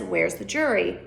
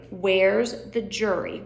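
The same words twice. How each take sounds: First: Said in the usual way. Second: Drawn out slow question; slower. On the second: Shown as a demonstration. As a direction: stretch the words out slowly. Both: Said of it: "repeated slower".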